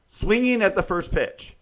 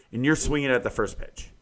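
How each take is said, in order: First: Higher, louder exasperated repeat. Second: Said in the usual way. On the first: Real, not acted. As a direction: hammer it home in disbelief. Repeats the complaint with emphasis.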